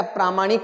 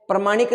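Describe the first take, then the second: First: प्रामाणिक with a long "praa"; प्रामाणिक opening on a lengthened A; correct long A. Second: प्रमाणिक with a short "pra"; प्रमाणिक opening on a short A; wrong short A. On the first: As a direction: say प्रामाणिक as PRAA-maa-nik. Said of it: "प्रामाणिक होता है". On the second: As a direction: say प्रमाणिक as pra-MAA-nik. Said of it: "प्रमाणिक नहीं होता है". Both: Shown as a demonstration.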